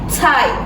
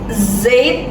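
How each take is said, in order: First: The word begins with a sharp ts sound. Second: The word begins with a buzzing z sound. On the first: The speaker calls it right. "tapi Zeit, seperti itu. Nyebutnya ke C gitu" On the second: The speaker calls it wrong. "bukan Zeit"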